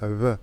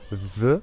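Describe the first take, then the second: First: The lips almost close, letting air pass. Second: The lower lip touches the upper teeth. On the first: This is the Spanish way of saying it. The speaker calls it right. "En espagnol, c'est V. V, c'est un peu comme un B, sauf qu'on ne ferme pas complètement les lèvres" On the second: This is the French way of saying it. The speaker calls it wrong. "en français, on fait V. V, on met la lèvre inférieure sur les dents"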